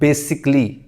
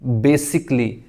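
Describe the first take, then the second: First: The a is dropped, giving three syllables. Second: The a is dropped, giving three syllables.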